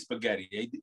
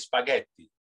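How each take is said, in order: First: The word has an American English pronunciation. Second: The word has an Italian pronunciation. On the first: "I don't say spaghetti" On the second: "That's the way I pronounce it Italian"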